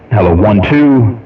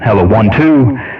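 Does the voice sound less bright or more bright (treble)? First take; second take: less bright; more bright. First: The voice has somewhat less treble and brightness. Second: The voice has somewhat more treble and brightness. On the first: "roll it back on the tone to add more treble" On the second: "We'll give it a little bit more"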